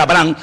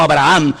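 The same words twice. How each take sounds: First: "Abraham" said as Abrán, two syllables; "Abraham" shortened to Abrán; short Abram form. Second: "Abraham" with the last vowel doubled; long Abraham form. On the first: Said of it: "en aquel momento era Abraham". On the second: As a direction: stretch "Abraham" into A-bra-án. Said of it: "no Abraham, como después lo llamó el Señor". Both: Shown as a demonstration.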